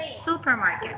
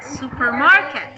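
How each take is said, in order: First: The stress is on the first syllable. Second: The stress is on the third syllable. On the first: The speaker calls it right. "You said supermarket, so it's a first" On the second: The speaker calls it wrong. "if you will say the third, it, it will sound like supermarket. That's not how you read it"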